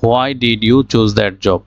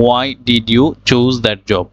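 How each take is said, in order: First: "Why" said "ho-ai", with an h; slow question opening "Why" as "hwai"; common mispronunciation. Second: "Why" said like the letter Y, "wai"; slow question, no h in "Why"; correct pronunciation. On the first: Teacher reads it the way most people say it, "Why" as "hwai". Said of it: "এই why কথাটা বলে থাকি". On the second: Teacher models the correct question, "Why" as plain "wai". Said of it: "বলতে পারবো why". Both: Shown as a demonstration.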